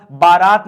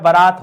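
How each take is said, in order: First: बारात said loud with a long "baa"; wrong long first vowel. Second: बारात said loud with a short "ba"; correct short first vowel. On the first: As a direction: stretch the first syllable of बारात, "baa-raat". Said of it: "बारात नहीं होता है". (बारात में लंबा "बा") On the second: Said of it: "बारात होता है". (बारात का पहला स्वर छोटा, "बरात") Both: Shown as a demonstration.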